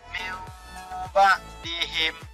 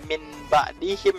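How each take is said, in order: First: The n is changed into an m sound. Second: The n is pronounced as a clear n. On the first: The speaker calls it right. "dibalikkan menjadi jadi mim" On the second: The speaker calls it wrong. "Jadi nggak nggak"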